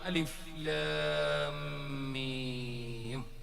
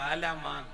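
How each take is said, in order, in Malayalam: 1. മൂന്ന് അക്ഷരപ്പേരുകൾ വേറെ വേറെ വാക്കുകളായി പറയുന്നു. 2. അക്ഷരങ്ങൾ ഒന്നിച്ചുചേർത്ത് ഒരു വാക്കായി പറയുന്നു. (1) "അങ്ങനല്ലേ ഓതുന്നേ?" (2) "ഏതോ ഒരു ചങ്ങ ആലമാന്ന് ഓതിനല്ലോ"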